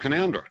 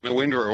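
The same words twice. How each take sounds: First: Canowindra said as "ka-NOUN-dra"; local pronunciation. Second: Canawindra said as "kana-WIN-dra"; common mispronunciation. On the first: Shown as a demonstration. Caller names a fine town, Canowindra as local "ka-NOUN-dra". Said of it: "stick to the local pronunciation". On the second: Retold or imitated. Caller echoes the outsiders' mistake, Canawindra as "kana-WIN-dra". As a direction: say Canawindra as spelt, "win" sounded. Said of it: "will correct them automatically".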